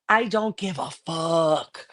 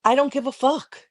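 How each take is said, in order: First: Slow, stretched I DON'T GIVE A FUCK; defiant, each word pulled long; drawn-out defiance. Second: Higher-pitched, quicker insistence; defiant, pitched well up; insistent defiance. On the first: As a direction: drag out every word for emphasis. Defiant repeat, drawn out for emphasis. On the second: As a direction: throw it out high in defiance. Defiant repeat after being challenged. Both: Real, not acted.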